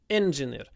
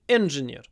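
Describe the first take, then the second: First: The stress is on the first syllable. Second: The stress is on the first syllable.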